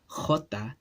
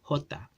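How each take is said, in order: First: It starts with a strong guttural throat sound. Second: It starts with a soft breathy h sound. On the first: This is the Spanish pronunciation. "instead of saying jota" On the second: This is the Chabacano pronunciation. "jota with that h sound"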